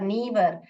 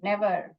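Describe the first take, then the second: First: The first vowel is a long ee sound. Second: The first vowel is a short e sound. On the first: The speaker calls it wrong. "यहाँ पर ई करके बता रहे... ये गलत है" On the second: The speaker calls it right. "ये correct है"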